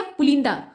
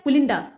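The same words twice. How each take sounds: First: पुलिंदा read as written with a long ल vowel, पुलीन्दा; wrong long-vowel reading. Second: पुलिंदा said with a short u after ल, quick; correct short-u reading. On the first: Teacher showing students the wrong reading, long vowel. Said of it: "ल पे बड़ी की मात्रा है, तो पढ़ेंगे क्या". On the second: Teacher giving students the correct reading, short vowel. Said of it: "ल पे छोटे ऊ का उच्चारण होता है". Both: Shown as a demonstration.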